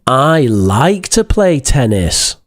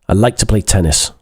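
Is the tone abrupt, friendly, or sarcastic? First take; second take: sarcastic; abrupt. First: It is said in a sarcastic tone. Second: It is said in an abrupt, curt tone. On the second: "Doesn't sound very polite, sounds a bit abrupt"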